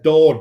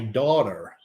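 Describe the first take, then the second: First: It is said in a British accent. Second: It is said in an American accent. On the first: The phone does not understand it. "if I say it in my normal British accent" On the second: The phone understands it. "I actually have to say"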